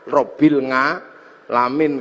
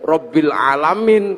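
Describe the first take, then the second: First: It is said with a Javanese accent. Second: It is said with an Arabic pronunciation.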